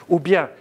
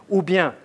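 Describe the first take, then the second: No difference in how they are said.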